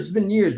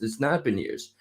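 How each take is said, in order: First: Said in the usual way. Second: "not" leaned on, the rest falling softer; a self-correction landing on "not"; stress on not. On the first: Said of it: "but no". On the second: Shown as a demonstration. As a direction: correct yourself by hitting "not". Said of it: "but no, it's".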